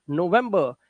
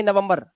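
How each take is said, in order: First: नवंबर as no-VEM-buh, final r dropped; slower English-style नवंबर, "no-VEM-buh"; English pronunciation. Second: नवंबर as nuh-vum-bur, short vowels and sounded r; Hindi-style नवंबर with final r; wrong Hindi-style form. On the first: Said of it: "ना कि नवंबर". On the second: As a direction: say नवंबर the Indian everyday way. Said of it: "ना कि". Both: Shown as a demonstration.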